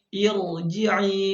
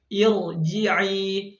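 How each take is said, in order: The two takes are said the same way.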